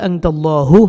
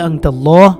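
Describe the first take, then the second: First: The word ends with an added final u vowel. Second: The word ends on a bare final h sound. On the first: The reader joins this word to the next. "আর যদি মিলিয়ে যান তাহলে আনতাল্লাহু হবে" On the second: The reader stops after this word. "যদি এখানে থামেন তাহলে আনতাল্লাহ"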